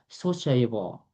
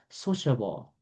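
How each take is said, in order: First: The middle vowel is full and clearly pronounced. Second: The middle vowel is soft and barely pronounced. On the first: The speaker calls it wrong. "I thought I was supposed to pronounce it as sociable, but it's not sociable. It's not correct" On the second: The speaker calls it right. "the ah sound is not clear. It's a soft ah sound"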